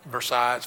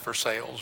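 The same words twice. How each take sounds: First: The name is said the French way. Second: The name is said the local American way. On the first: This is how the French say the name. "we pronounce it differently than they do, but we are in Kentucky, so it's not" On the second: This is how people in Kentucky say the name.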